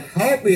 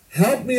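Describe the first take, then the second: First: High shout hitting "help"; desperate yell. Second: High, rising cry on "me"; a falling man shouting for help, stress on "me"; desperate yell. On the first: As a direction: punch "help" hard, pleading. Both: Retold or imitated. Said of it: "he yells up".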